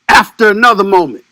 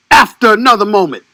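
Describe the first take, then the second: No difference in how they are said.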